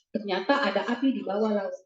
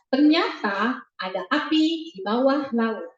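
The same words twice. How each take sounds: First: The sentence is read in a flat, dull tone. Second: The sentence is read with lively, expressive intonation. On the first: The listening child finds it boring. The speaker calls it wrong. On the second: The listening child finds it more interesting. The speaker calls it right. "ekspresif istilahnya"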